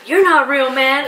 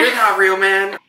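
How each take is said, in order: First: Mock stoner dismissal; Creed impression. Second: Much higher, louder spaced-out voice; hammed-up dazed dismissal; Creed impression. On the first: Wife quoting Creed brushing Jim off. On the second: Husband topping wife's Creed impression, higher. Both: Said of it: "And Creed says".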